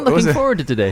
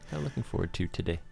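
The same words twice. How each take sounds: First: It is said with more energy and enthusiasm. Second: It is said flatly, without enthusiasm.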